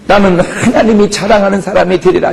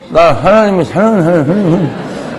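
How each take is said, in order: First: It is said firmly, with strong determination. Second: It is said limply, without energy.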